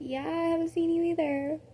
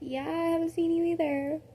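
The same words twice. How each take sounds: First: It is said in a rude, curt tone. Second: It is said in a rude, curt tone.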